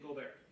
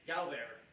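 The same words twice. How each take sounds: First: It is said with a French accent. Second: It is said with a Chicago accent.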